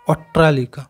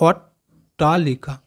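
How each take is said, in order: First: Said in the usual way. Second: "অট্টালিকা" in pieces, অট, pause, টা, লিকা; broken into syllables. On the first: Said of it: "একসাথে ভালো করে যদি আমরা বলি". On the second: Shown as a demonstration. Teacher demonstrating the double ট, "অট্টালিকা" said slowly in separate pieces. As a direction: separate the two ট in "অট্টালিকা" with a gap. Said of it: "দুটো টয়ে আমাদের উচ্চারণ হলো".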